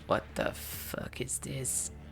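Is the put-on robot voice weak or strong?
weak. A weak first try at Mister Handy's voice.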